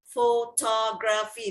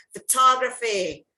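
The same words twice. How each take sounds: First: Photography slowly spread into pho-to-gra-phy; syllable by syllable. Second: Photography in one go, louder on TOG; stress on second syllable. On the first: Teacher shows photography is four syllable, syllable by syllable. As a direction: draw photography out so four syllables can be counted. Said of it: "that's four syllable". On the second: Teacher shows a many syllable word, stressed second syllable. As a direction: say photography whole, punching TOG. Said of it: "you have all these many syllable word". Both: Shown as a demonstration.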